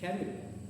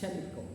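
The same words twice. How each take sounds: First: The word begins with a k sound. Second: The word begins with a ch sound. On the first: The speaker calls it right. "but is chemical. The ch sound, the ch letter is changed to k, k sound" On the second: The speaker calls it wrong. "not pronounced as chem- chemical"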